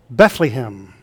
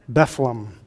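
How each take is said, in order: First: The middle syllable has a long E vowel. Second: The word starts with a sound like beef. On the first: "Others put a long E in the middle syllable" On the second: "just abbreviate it to Bethlehem, like the beef, B-E-F"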